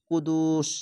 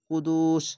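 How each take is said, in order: Both takes have the same delivery.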